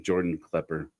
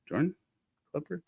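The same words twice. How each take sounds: First: Said in the usual way. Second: "Jordan? Klepper?" each rising as a question; unsure of the name, "Jordan" and "Klepper" lilting upward; self-doubting. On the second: Real, not acted. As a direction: break "Jordan" and "Klepper" apart, querying each. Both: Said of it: "now I'm doubting the man's first name".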